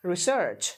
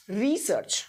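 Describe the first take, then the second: First: research with short ri, stressed SEARCH; stress on second syllable. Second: research with long stressed REE; stress on first syllable. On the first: Teacher showing second-syllable stress, ri-SEARCH, in research. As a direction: put the weight on search in research. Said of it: "इस search पे stress किया". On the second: Teacher showing first-syllable stress, REE-search, in research. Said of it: "अगर आपने पहले को stress किया". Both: Shown as a demonstration.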